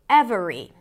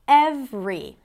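First: The word is said with three syllables. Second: The word is said with two syllables. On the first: "instead of" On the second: "Reducing three syllables into two"

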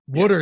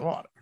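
First: It is said with a Philadelphia accent, like wooder. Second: It is said with a standard pronunciation. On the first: The speaker calls it wrong. "The Philly area, you know, it's huge, is Wooder" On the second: The speaker calls it right. "Now I say it correctly, like a normal person"

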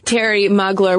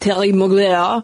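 First: It is said in a plain English accent. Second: It is said in a fancy French accent.

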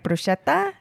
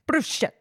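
First: It is said in a standard accent. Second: It is said in a New Jersey/New York accent.

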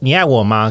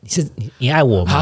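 First: It is said in a joking, playful way. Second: It is said seriously, with nervous hesitation.

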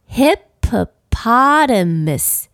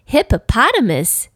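First: The word is said at a moderate pace. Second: The word is said at a very fast pace. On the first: "我们一起来念念看这个字" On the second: "再说快一点"

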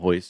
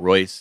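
First: The name begins with an H-like sound. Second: The name begins with an English R sound. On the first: The speaker calls it right. "because in Brazil, the R's are H's" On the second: The speaker calls it wrong. "It's not Royce"

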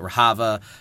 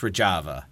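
First: The name is read with a Spanish-style pronunciation. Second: The name is read without a Spanish-style pronunciation. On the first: The speaker calls it wrong. "I had taken 4 years of Spanish, so I kept pronouncing it Rojava" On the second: The speaker calls it right. "It's Rojava"

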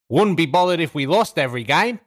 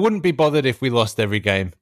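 First: It is said in an Australian accent. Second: It is said in the speaker's plain accent.

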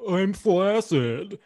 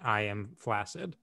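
First: It is said in a lively, playful tone. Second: It is said in a flat, matter-of-fact tone.

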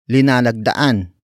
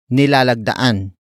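First: The word begins with the syllable li. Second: The word begins with the syllable ni. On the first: "The first word is linalagdaan" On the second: "Some Tagalog speakers would say nilalagdaan. The first N and the first L are switched"

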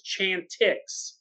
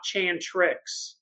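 First: There is no R sound after the T. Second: There is an R sound after the T. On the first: The speaker calls it right. "I think it's Chantix" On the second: The speaker calls it wrong. "not Chantrix"

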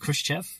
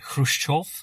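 First: The name is said in an anglicized way. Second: The name is said closer to Russian. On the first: This is the form the film used. "the film goes with the pronunciation Khrushchev" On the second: This is closer to the original form. "if you want to be really pedantic about it, it was something more like Khrushchev"

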